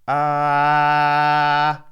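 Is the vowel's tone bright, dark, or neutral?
bright. The vowel has a much brighter tone. "if I lift my larynx on that, hear how much brighter that gets"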